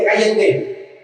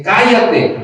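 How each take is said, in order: First: Milder first exclamation; exclaimed hushing. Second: Higher-pitched, firmer retold "shut up"; the crowd's rebuke, pitched up and punched; emphatic exclamation. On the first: Retold or imitated. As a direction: quote the crowd's rebuke with raised pitch. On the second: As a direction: read it with its exclamation marks. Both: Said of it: "de admiración ahí".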